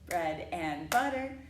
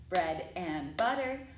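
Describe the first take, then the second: No difference in how they are said.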